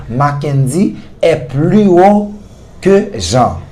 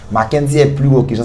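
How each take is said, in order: First: Slow, stretched model sentence, leaning on plus; slow teaching demo. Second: Said in the usual way. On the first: Shown as a demonstration. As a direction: spell it out slowly for the class.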